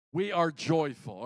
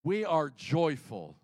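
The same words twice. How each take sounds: First: "are" hit hard in "We are joyful", sentence falls after; stress on are. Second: "We" pushed hard and slow, "are joyful" falling away; stress on we. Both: Shown as a demonstration. Repeats line shifting stress.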